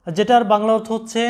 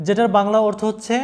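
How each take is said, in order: Both takes have the same delivery.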